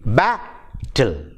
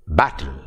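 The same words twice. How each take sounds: First: "battle" split as ba, then ttle, with a clear gap; syllable by syllable. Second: Said in the usual way. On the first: Shown as a demonstration. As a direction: break "battle" into two separate beats. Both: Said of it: "two-syllabled".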